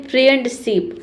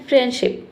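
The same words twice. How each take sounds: First: फ्रेंडशिप with a clear D, "friend-sip"; D sounded. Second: फ्रेंडशिप with no D, "fren-ship"; silent D. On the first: Teacher shows how odd it sounds, फ्रेंडशिप with sounded D. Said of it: "अजीब सा लग रहा है". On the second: Teacher shows the correct pronunciation, फ्रेंडशिप with silent D. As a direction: drop the D in फ्रेंडशिप. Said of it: "correct pronunciation यही है". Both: Shown as a demonstration.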